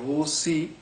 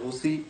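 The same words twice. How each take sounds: First: The middle consonant is a plain s sound. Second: The middle consonant is an aspirated ch sound. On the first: "দন্তা স দিয়ে বলছে" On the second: "কেউ ছ দিয়ে বলছে"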